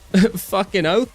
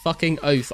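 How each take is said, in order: First: It is said in a failed attempted Australian accent. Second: It is said in a British accent. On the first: "That was that was not an Australian accent" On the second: "I'll just say it in my British accent"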